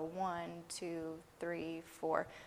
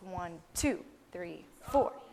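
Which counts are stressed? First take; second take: one, three; two, four. First: The stress falls on one and three. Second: The stress falls on two and four.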